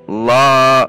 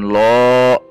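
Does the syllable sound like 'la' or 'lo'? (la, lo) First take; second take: la; lo. First: The vowel is open and unrounded, like a. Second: The vowel is rounded, like o. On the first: The speaker calls it right. "namun la" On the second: The speaker calls it wrong. "Bukan lo"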